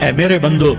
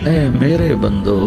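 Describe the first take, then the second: First: The phrase is said in a plain, flat tone. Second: The phrase is said in a warm, tender tone. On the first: The speaker calls it wrong. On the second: The speaker calls it right.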